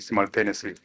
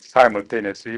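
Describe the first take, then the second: First: The word is pronounced a non-American way. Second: The word is pronounced the American way. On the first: "simultaneous is uh, more broadly understood pronunciation" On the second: "if I was speaking in the United States, I would have no qualms about pronouncing it simultaneously"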